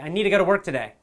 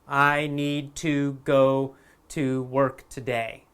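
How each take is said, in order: First: The T is very weak, almost needa. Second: The words need and to are said separately. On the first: It is an even more relaxed spoken form. "the T might be a very weak sound" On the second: It is the careful textbook form. "This is how we would say it in a, in a textbook or in a school"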